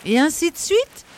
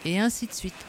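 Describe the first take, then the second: First: Outraged shout. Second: Said in the usual way. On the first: Acted. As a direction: shout "Et ainsi de suite?" high and loud, rising at the end. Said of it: "cria Danglars". (crier « Et ainsi de suite ? » fort et aigu, montée indignée)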